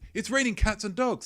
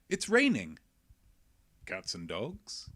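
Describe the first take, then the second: First: It is said as one phrase without a pause. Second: A pause comes before 'cats and dogs', addressing them.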